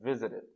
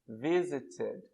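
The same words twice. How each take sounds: First: The word is said at a fast pace. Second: The word is said at a slow pace.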